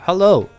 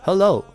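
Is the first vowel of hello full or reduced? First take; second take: reduced; reduced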